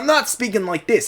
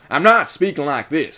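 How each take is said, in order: First: It is spoken in a New York accent. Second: It is spoken in an American Southern accent. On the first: "I don't have a New York accent either" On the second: "I don't have a southern accent"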